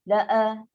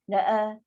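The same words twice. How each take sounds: Both takes have the same delivery.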